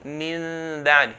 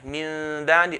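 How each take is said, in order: Both takes have the same delivery.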